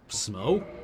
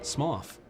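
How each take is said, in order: First: The name ends on an open vowel sound. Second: The name ends with a breathy consonant sound. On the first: The speaker calls it wrong. "no, that's not how you pronounce that" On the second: The speaker calls it right. "That's an off noise. Like trough"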